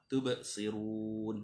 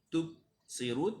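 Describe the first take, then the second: First: The middle b has a clear echoing bounce. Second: The middle b is cut short with no bounce. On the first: The speaker calls it right. "Bunyi lantunan suara" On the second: The speaker calls it wrong. "Kalau tak bunyi. Tubsirun tak betul"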